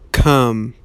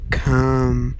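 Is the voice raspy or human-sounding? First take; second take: human-sounding; raspy. First: It is said in a more normal human voice. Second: It is said in a raspy, inhuman voice.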